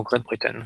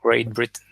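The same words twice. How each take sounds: First: Great Britain said with French r and vowels; French-accented English. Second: Great Britain redone in a careful English accent; English accent attempt. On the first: Naming the country code on a coding stream, French-accented English. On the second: Correcting his own pronunciation for viewers, English accent attempt. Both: Shown as a demonstration. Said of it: "Désolé pour mon, mon accent".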